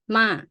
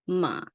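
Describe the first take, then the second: First: The pitch starts high and drops. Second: The pitch stays low and flat. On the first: "falling is sound like you go up high and then you put it low" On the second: "low tone ... sound like you have depression"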